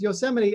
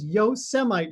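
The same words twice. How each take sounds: First: The word ends with four syllables, 'semitty'. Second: The word ends like 'Semite', three syllables. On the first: The speaker calls it right. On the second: The speaker calls it wrong.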